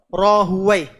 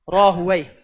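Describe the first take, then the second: Both takes have the same delivery.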